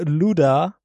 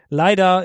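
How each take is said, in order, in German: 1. Es wird mit britischem Akzent gesprochen. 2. Es wird mit amerikanischem Akzent gesprochen. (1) "British English wäre Luda" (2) "Leider ist American English"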